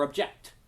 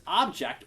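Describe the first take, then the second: First: ObJECT, with the weight on "ject"; stress on second syllable. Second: OBject, with the weight on "ob"; stress on first syllable. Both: Shown as a demonstration. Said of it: "that's a matter of emphasis".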